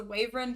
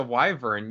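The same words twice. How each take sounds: First: "wyvern" said as WAY-vern; family pronunciation. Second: "wyvern" said as WHY-vern; standard pronunciation. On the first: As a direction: say "wyvern" with a long "way" at the start. Her family's pronunciation under dispute. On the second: Corrects the other's pronunciation. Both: Real, not acted.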